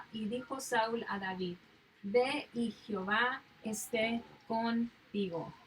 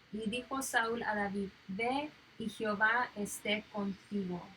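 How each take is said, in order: No difference in how they are said.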